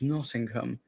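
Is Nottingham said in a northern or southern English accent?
southern. Southern English accent, with the T sounded. "down south they'd pronounce it"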